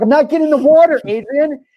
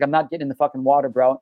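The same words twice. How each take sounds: First: Put-on much higher, louder, childish whining protest; whiny mock yell. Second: Said in the usual way. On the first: Shouting at his friend who walks ahead into the creek, higher and louder in a childish whine. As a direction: squeal it like a kid refusing a bath.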